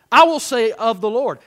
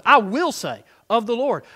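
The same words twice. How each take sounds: First: "I" hit hard and loud in "I will say"; stress on I. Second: "will" lifted and punched in "I will say"; stress on WILL. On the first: Preacher showing how to declare scripture, stress on "I". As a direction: lean hard on the opening "I". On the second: Preacher emphasizing different words for the congregation, stress on "will". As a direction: lean on "will" with resolve. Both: Shown as a demonstration. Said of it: "start emphasizing different words".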